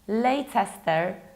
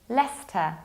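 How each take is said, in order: First: The middle 'ce' syllable is pronounced. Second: The middle 'ce' syllable is skipped. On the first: The speaker calls it wrong. "This is not Leicester" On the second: The speaker calls it right. "This is Leicester"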